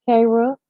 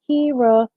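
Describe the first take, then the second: First: "Kara" said with an open a, car-ah; "Kara" misread as car-ah, then caught; misread name. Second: "Kira" said as keer-ah; "Kira" fixed to keer-ah, rhymes with "Sierra" without the s; corrected name. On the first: Greeting Kira on the stream, "Kara" said as car-ah. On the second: Greeting Kira after the slip, "Kira" said as keer-ah. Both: Real, not acted. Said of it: "K-, nope".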